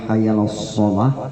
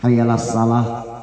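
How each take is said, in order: First: The s sound is heavy and full. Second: The s sound is light and thin. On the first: It calls people to prayer. The speaker calls it right. "dibaca dengan benar makharijul hurufnya" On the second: It calls people to shrink one hand. The speaker calls it wrong. "kalau salah"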